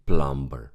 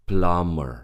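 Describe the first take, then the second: First: The B is pronounced. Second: The B is not pronounced. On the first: The speaker calls it wrong. "We don't say plumber" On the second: The speaker calls it right.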